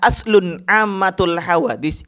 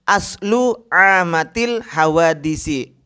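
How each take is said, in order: First: The first word ends with an n sound. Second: The first word ends in a plain vowel. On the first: The second word describes the first. The speaker calls it wrong. "itu salah" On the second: The first word belongs to the second. The speaker calls it right. "Yang betul itu adalah"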